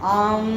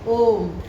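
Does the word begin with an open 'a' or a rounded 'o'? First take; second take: open a; rounded o. First: It starts with an open 'a' vowel. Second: It starts with a rounded 'o' vowel. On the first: "अम में ए use होता है" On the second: "ओ में पूरा मुंह नहीं खुलता है"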